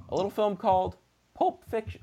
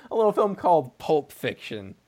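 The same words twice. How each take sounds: First: Voice cracking. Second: Said in the usual way. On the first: Real, not acted. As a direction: voice cracks on the title. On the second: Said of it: "my voice just cracked".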